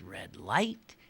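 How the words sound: The stress falls on the second word. This is how the speaker says it. "In my world, it's red light"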